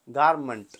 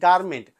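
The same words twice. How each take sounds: First: The final syllable is reduced to 'mnt'. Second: The final syllable has a full 'ment' vowel. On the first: The speaker calls it wrong. "We cannot say गारमेंट" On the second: The speaker calls it right. "We से गारमेंट"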